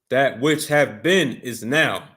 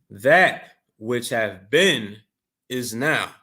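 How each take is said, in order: First: It is read at a quicker pace. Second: It is read at a slower pace.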